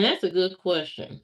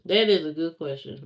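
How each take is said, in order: First: "that's" stressed in "that's a good question". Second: "is" said in full and stressed. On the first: Streamer weighing a viewer's goal weight question, stress on "that's". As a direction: lean on "that's", then let the rest fall. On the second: Streamer granting the viewer's question, stress on "is". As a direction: lean on "is" in "That is", falling after it. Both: Real, not acted.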